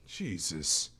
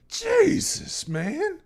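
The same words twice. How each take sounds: First: Said in the usual way. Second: Jesus drawn out high and loud; loud exclamation. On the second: Real, not acted. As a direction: belt out Jesus in shock. Shocked exclamation at sad story.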